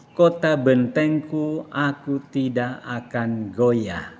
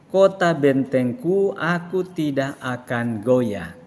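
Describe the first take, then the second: No difference in how they are said.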